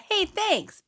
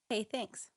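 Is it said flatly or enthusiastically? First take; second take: enthusiastically; flatly. First: It is said with lively enthusiasm. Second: It is said flatly, without enthusiasm.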